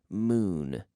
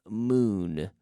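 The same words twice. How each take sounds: No difference in how they are said.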